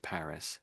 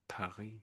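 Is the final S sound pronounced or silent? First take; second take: pronounced; silent. First: The final S sound is pronounced. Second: The final S sound is silent. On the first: This is the British way of saying it. "the Brits say Paris ... we pronounce the S on the end" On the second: This is the French way of saying it. "the French, of course, say Paris ... the French just don't say the S"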